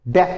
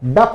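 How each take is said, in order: First: The vowel sounds like 'eh'. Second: The vowel sounds like 'uh'. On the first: The speaker calls it right. "डेफ बोलोगे" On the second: The speaker calls it wrong. "डफ नहीं बोलोगे इसको"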